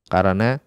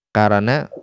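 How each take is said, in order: No difference in how they are said.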